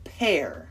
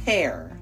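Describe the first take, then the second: First: The vowel sounds like the word 'air'. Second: The vowel sounds like the word 'air'.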